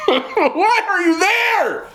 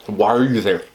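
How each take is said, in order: First: High, drawn-out exasperated cry with laughter; animated yelling. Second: Said in the usual way. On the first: Real, not acted. To friends who stay with a partner they dislike, animated yelling. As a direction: yell it way up high, stretching the words. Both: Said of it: "I'm sorry, I'm yelling".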